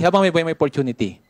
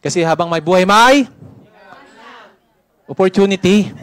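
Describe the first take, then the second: First: Said in the usual way. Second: Loud emphatic. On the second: Acted. Repeats it louder, nobody answered.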